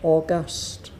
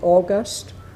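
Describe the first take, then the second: First: The stress is on the second syllable. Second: The stress is on the first syllable. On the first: It means majestic or imperious. "if it's the adjective, we say August" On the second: It names the month. "If it's the month, we say August"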